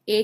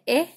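First: Last "ए" as open ae, like apple; phonic A sound. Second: "ए" as short eh, like egg; phonic E sound. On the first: Teacher reviewing A against E, "ए" as open ae. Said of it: "ए का sound होता है". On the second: Teacher reviewing E against A, "ए" as short eh. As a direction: keep "ए" a short, closer eh. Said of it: "ई का sound होता है". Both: Shown as a demonstration.

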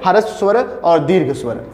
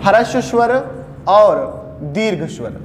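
First: Said in the usual way. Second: "ह्रस्व स्वर" और "दीर्घ स्वर" अलग-अलग ठहरकर, हर शब्द पर ज़ोर; "ह्रस्व स्वर" रुककर, फिर "दीर्घ स्वर" धीमे गिरते सुर में; शब्दों पर ज़ोर. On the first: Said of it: "वैसे ही स्वर को भी दो भागों में". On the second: Shown as a demonstration. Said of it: "एक का नाम है ह्रस्व". (दोनों भेद रुक-रुककर ज़ोर देकर गिनाना)

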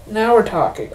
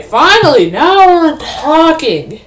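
First: Said in the usual way. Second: Loud, high and drawn out slowly; excited cheer. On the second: Real, not acted. Gamer cheering as the action finally starts, loud and slow. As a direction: savour the moment, nearly singing it. Finally found fight in game.

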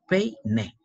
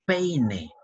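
First: "peine" broken as pei, pause, ne; split into syllables. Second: Said in the usual way. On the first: Shown as a demonstration. Teacher showing the joined vowels, "peine" split by syllables. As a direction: say "peine" in two separate beats.

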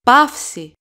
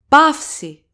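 Both takes have the same delivery.

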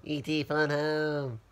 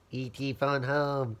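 First: Slow alien voice with a changed timbre; slow hammed-up creature plea; E.T. impression. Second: Slow, drawn-out alien croak; lightly done slow alien voice; E.T. impression. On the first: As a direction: say it slowly like the stranded alien. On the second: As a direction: stretch each word like the alien. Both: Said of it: "my movie impersonation of Elliot".

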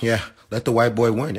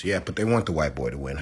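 First: Higher, louder sarcastic mimicry; singsong mock of the league's line. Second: Said in the usual way. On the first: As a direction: sneer it back at the doubters. Mocks the league's reasoning.

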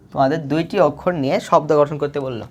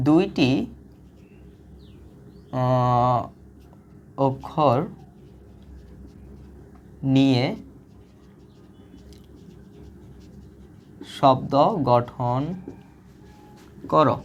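First: Said in the usual way. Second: Reading the task out word by word, slowly. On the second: Shown as a demonstration. Teacher slowly reading the exercise to students. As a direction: spell out the problem very slowly for the class. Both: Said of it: "এখন তোমাকে বলছে".

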